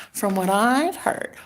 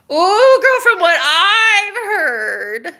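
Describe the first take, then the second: First: Said in the usual way. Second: High, loud, long-stretched squeal; sing-song scandalized delight; gleeful gossip. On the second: Real, not acted. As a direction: draw every word out in a soaring, teasing whoop.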